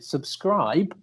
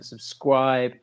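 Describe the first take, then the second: First: The word is pronounced carefully, with every sound clear. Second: The word is pronounced unclearly, with a speech slip. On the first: The speaker calls it right. "I was going to enunciate very clearly" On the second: The speaker calls it wrong. "I've got a case of the Jonathan Rosses"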